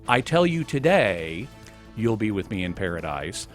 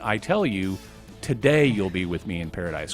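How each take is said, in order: First: The pause comes after the word today. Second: The pause comes before the word today.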